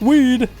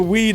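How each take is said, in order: First: The word is said in an exaggerated meme voice. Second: The word is said in a plain, ordinary voice. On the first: "I should be like, weed. Like the fucking [name] songs and shit, the meme" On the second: "every time I say weed"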